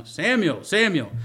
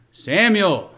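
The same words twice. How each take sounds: First: Calling Samuel again, a bit higher. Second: Loud, high call of the name; God calling out. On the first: Preacher voicing God calling the boy twice, mildly raised. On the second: Preacher voicing God's call to the sleeping boy, loud and high. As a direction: call across the dark to wake him. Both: Pretend. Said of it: "How did it sound?".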